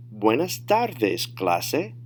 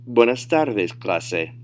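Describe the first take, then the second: First: Slow model phrase, stretching out "tardes"; drawn-out, clearly separated teacher demo; slow, careful model. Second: Fluent, connected "Buenas tardes, clase"; advanced-level demo without stretching; natural speed. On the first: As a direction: say "Buenas tardes, clase" slowly for learners. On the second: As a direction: say it in one easy run at native pace. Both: Shown as a demonstration. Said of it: "say them at natural speed".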